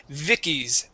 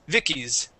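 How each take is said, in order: Both takes have the same delivery.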